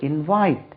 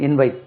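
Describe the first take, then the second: First: In-VITE for invite; stress on second syllable. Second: invite without a lift on the second syllable; IN-vite for invite; misplaced stress demo. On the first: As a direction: lift then drop the pitch on VITE in invite. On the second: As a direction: leave VITE unstressed in invite. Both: Shown as a demonstration. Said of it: "அங்க இல்ல".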